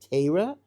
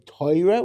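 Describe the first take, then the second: First: The word is said in a Lithuanian Jewish accent. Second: The word is said in a Polish Jewish accent. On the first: "That's what a, lit, a true Litvak would say" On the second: "which is kind of the yeshivish pronunciation, but that's really Polish"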